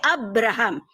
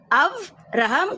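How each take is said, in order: First: The middle consonant is a b sound. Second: The middle consonant is a v sound. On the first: This is the Greek form of the name. "Yunani pakai" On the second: This is the Hebrew form of the name. "Ibrani pakai V"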